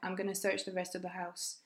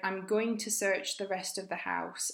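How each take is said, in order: First: Words are reduced and linked, with gonna. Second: Every word is said fully and separately. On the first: "I'm sounds like am, ... going to that sounds like gonna" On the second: "we heard"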